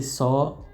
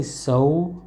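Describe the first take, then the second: First: So with a pure open O; flat-vowelled Yorkshire so, no oo ending. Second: So with a U glide at the end; American so. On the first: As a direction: say so as "saw", without the U glide. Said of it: "with an O and not an O". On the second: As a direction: say so as "soh-oo". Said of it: "with the U at the end". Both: Shown as a demonstration.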